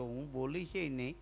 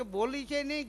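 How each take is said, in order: First: Lightly lisped બોલી છે નહીં, soft and low; mock lisp with છે said as સે; lisping speech. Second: Lisped બોલી છે નહીં, said higher and clearer; mock lisp, છે said clean but raised; lisping speech. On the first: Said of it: "તઈ મગન બોલ્યો". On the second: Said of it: "મને કે".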